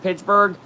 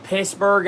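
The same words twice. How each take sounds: First: Said in the usual way. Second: "Pittsburgh" said without the T, as "Pissburgh"; "Pittsburgh" with a hissed double S for the T; altered city name. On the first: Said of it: "and not Pittsburgh". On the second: Shown as a demonstration. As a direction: drop the T in "Pittsburgh". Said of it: "Just a little play on words".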